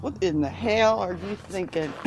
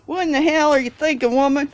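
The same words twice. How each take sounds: First: Mock-incredulous quote; understated mock disbelief at normal volume; imitating disbelief. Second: Loud, high mock-outraged yell; hammed-up scolding, much louder and higher; imitating outrage. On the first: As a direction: imitate a baffled dinner guest, mildly. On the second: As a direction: holler it like an appalled dinner guest. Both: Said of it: "they'll look at me like".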